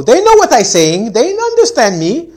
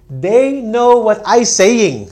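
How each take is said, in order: First: Much higher, loud, slow protest; mock stubborn student. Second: Loud, high, slow student insisting; mock student voice. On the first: Student insisting classmates understand, hammed-up high protest. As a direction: whine it like a student who won't budge. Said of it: "Remember, this is the not to do thing". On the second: Student defending bad English to the teacher, mock high insistence. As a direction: mimic a stubborn student. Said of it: "That's bad English".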